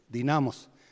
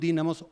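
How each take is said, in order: First: The stress is on the second syllable. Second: The stress is on the first syllable. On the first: This is how the local community came to say it. "con acento grave" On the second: This is the original form of the word. "originalmente son dínamos"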